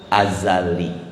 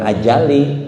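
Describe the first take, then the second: First: The middle consonant is a z sound. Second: The middle consonant is a j sound. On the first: The speaker calls it right. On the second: The speaker calls it wrong.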